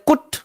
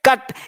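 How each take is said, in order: First: The vowel sounds like oo. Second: The vowel sounds like uh. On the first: The speaker calls it wrong. "बहुत बच्चे कुट पढ़ लेते हैं" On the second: The speaker calls it right. "यहां पे सी U T क्या है"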